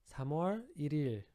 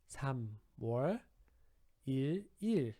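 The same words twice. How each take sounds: First: It is said fast with the words run together. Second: It is said slowly with pauses between words.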